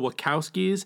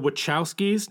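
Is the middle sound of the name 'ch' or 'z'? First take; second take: z; ch. First: The name's middle sound is a 'z'. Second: The name's middle sound is a 'ch'. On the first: The speaker calls it wrong. "not the Wachowskis. Wachowski is One-Eyed Mike's last name" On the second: The speaker calls it right. "it's the Wachowskis"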